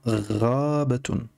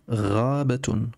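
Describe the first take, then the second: First: "Rabatun" very slowly, opening "Ra" held long; stretched first syllable. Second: "Rabatun" slowly, with ghayn plus a; model pronunciation. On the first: Teacher highlights the fatha syllable, drawn-out "Raaabatun". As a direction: draw out the "Ra" in "Rabatun". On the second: Teacher shows the fatha in a word, slow "Rabatun". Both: Shown as a demonstration. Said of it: "la prononciation Ra ici".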